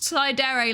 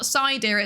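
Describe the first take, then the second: First: The name ends with two syllables, 'deh-reh'. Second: The name ends with a sound like 'deer'. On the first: The speaker calls it right. "It is pronounced Saidere, like Tsundere or Dere Dere or Yandere" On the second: The speaker calls it wrong. "It's not pronounced like that. ... It's not deer"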